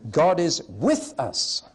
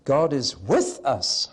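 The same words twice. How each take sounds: First: Slow, with punched and falling; repeating the third option for a vote, with stressed. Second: Slow, with punched; God is WITH us, slow; stress on WITH. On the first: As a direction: hit with. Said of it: "Let's take a quick vote". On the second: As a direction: lean into the word with. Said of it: "Meaning number three". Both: Shown as a demonstration.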